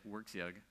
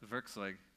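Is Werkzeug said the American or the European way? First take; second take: American; European. First: It is said with an American pronunciation. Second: It is said with a European, German-like pronunciation. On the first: "Americans pronounce it Werkzeug" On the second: "Here in Europe, Werkzeug is probably more idiomatic"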